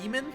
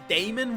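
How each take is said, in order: First: The first syllable sounds like 'dee'. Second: The first syllable sounds like 'day'. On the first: The speaker calls it right. "the correct pronunciation is still just Demon" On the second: The speaker calls it wrong. "which I usually pronounce with the E A, like as Damon"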